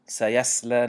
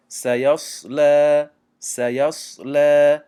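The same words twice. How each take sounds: First: سیصلی with a thin sad like sin; سیصلی with a light s; wrong thin sad. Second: سیصلی slow and louder with a full sad; سیصلی with a heavy sad. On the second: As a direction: fill the mouth on سیصلی. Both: Shown as a demonstration.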